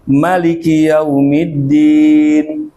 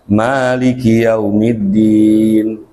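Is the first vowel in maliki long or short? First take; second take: short; long. First: The first vowel of maliki is cut short. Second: The first vowel of maliki is held long. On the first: "dibaca pet, dibuang alifnya" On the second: "Itu kalau baca maliki yaumiddin"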